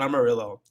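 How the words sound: It is said with an English pronunciation. The speaker calls it wrong. "It's not Amarillo. Like Amarillo, Texas"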